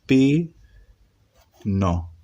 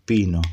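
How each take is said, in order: First: Syllable by syllable. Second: Said in the usual way. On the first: Shown as a demonstration. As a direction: sound out pi and no separately. (pi, no en sílabas separadas, con pausa) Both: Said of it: "¿Qué dice acá?".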